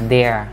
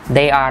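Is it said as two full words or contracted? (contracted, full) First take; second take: contracted; full. First: It is said as one contracted syllable. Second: It is said as two full separate words.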